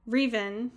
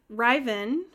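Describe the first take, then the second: First: "Riven" said REE-ven; long "ee" vowel in the first syllable of "Riven"; trying a pronunciation. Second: "Riven" said RYE-ven; long "eye" vowel in the first syllable of "Riven"; trying a pronunciation. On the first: Host guessing at an alien's name, "Riven" as REE-ven. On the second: Host guessing at an alien's name, "Riven" as RYE-ven. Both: Shown as a demonstration. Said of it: "I still can't remember".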